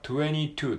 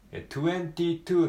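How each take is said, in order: First: The t in twenty is dropped. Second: The t in twenty is clearly pronounced. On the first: "実際は22 っていう風に言われることが多いです。" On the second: "綴りで言うと22 って書きますよね。"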